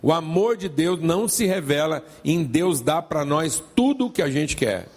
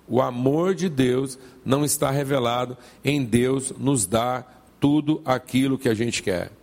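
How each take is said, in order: First: It is said at normal, faster speed. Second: It is said slowly and deliberately.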